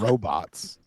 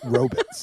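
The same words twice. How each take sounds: First: The word is pronounced in the ordinary way. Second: The word is pronounced in an odd, quirky way. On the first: It is the standard way to say the word. "instead of robots" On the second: It imitates a character's catchphrase pronunciation. "I say robots instead of robots"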